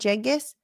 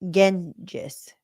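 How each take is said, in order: First: The name begins with a soft J-like sound. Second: The name begins with a hard G sound. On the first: The speaker calls it wrong. "Is that how you say it?" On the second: The speaker calls it right. "The G is hard"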